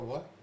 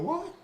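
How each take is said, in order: First: It is said flat, without expression. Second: It is said with lively expression.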